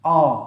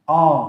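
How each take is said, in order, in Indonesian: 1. Vokal ini terdengar berat dan membulat, hampir seperti o. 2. Vokal ini terdengar berat dan membulat, hampir seperti o.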